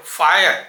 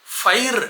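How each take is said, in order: First: ఫైర్ as two-part FAA-yer; anchor-style English ఫైర్, fa-yer; English nuance. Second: ఫైర్ as one syllable, fair-like glide; isolated ఫైర్ without a second syllable; standalone fire. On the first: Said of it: "విడిగా పలకటం వేరు". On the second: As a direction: say ఫైర్ compactly on its own. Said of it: "ఫైర్ అని విడిగా పలకటం వేరు". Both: Shown as a demonstration.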